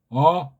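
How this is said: The vowel resonates high behind the nose. "소리가 코 뒤쪽으로 해서 머리 위로 올라가는 거예요 ... 울림 소리로"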